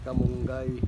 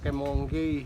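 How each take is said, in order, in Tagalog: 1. Simple at karaniwan ang pagbigkas sa salita. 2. Pa-sosyal at maarte ang pagbigkas sa salita.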